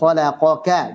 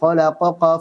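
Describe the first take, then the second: First: The last consonant is light and thin. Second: The last consonant is heavy and thick. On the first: The speaker calls it right. "Harusnya khalaqaka" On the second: The speaker calls it wrong. "Jangan khalaqaqa fasaw. Salah"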